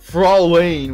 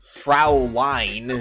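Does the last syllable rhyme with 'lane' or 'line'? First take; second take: lane; line. First: The last syllable sounds like 'lane'. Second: The last syllable sounds like 'line'. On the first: The speaker calls it wrong. "which I was calling it" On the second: The speaker calls it right. "you say line, not lane"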